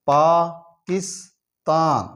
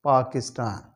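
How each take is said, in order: First: Pakistan stretched slowly, each syllable drawn out; slow syllable drill. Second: Said in the usual way. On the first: Shown as a demonstration. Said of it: "syllable drilling". (Pakistan को बहुत धीरे खींचकर बोलना) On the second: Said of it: "normal reading after drill".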